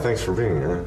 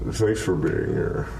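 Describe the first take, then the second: First: It is said in a plain, ordinary voice. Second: It is said in a put-on, creepy voice.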